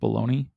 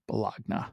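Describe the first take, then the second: First: It is said like 'baloney'. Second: It is said as spelled, 'bo-log-na'. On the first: "instead of bologna" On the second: "the phonetic pronunciation of bologna"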